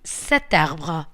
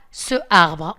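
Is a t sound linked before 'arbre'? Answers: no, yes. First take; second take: yes; no. First: A t sound links into the noun. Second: No t sound links into the noun. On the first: The speaker calls it right. "on dit cet arbre" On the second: The speaker calls it wrong. "on ne dit pas ce arbre"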